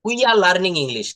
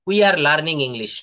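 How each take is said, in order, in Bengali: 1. We are একটি ছোট অক্ষরে মিলিয়ে বলা হয়। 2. We are কে দুটি পূর্ণ শব্দ হিসেবে বলা হয়। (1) "বলতে হবে উইয়া" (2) "নো"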